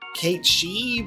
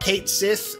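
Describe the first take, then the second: First: The second word is said as 'she'. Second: The second word is said as 'sith'. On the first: This is the Gaelic pronunciation of the name. "because that's how it's said uh, in Gaelic" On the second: This is the English pronunciation of the name. "as he is now officially going to be pronounced in English"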